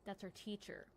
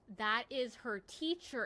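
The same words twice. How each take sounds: First: Said in the usual way. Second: That is her teacher, "is" held long and louder; slow it down and lean on "is"; stress on is. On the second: Real, not acted. Telling chat the ranting man was her teacher, stressing "is".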